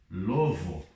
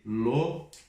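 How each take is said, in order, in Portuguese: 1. A consoante do meio soa como v. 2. A consoante do meio soa como b. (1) "já escutei falarem lovo, mas não" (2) "é letra B"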